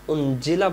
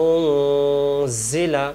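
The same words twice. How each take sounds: First: উনজিলা with a hard clear j sound; wrong clear j. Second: উনজিলা with the n hidden and nasalised, not a clear j; ikhfa nasal. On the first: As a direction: show the mistaken উনজিলা. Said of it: "উনজিলা বলে এটা জিম হয়ে যায়". (ভুল উচ্চারণে উনজিলা) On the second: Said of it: "এখানে ইকফা নিয়ম হবে". (ইখফা করে উনজিলা) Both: Shown as a demonstration.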